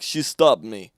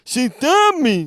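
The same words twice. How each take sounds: First: Put-on toned-down Russian accent, lower; imitated Russian accent, low and loud; Victor. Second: Wildly exaggerated Russian accent, shouted; high, loud, slow mock Russian; Victor. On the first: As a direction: attempt a straighter Russian accent. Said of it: "how do you do Russian?". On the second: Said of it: "He didn't talk like that".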